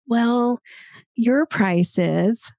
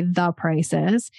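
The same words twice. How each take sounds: First: Drawn-out, slow hedge before the figure; hesitant qualifier. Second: Said in the usual way. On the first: Shown as a demonstration. Coach mimicking how a price gets qualified, hesitant. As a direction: stretch it out like you're hedging. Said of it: "a qualifier might be like". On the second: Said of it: "no, just say".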